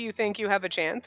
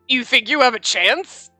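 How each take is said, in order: First: It sounds like a sincere, curious question. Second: It sounds doubtful and mocking. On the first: The asker is gauging the listener's confidence. The speaker calls it right. "you could actually say it and could mean" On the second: The listener is doubted and belittled. The speaker calls it wrong. "that sounds really awful"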